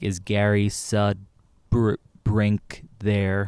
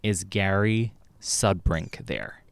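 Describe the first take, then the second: First: It is said with a strange, odd rhythm. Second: It is said with an ordinary rhythm.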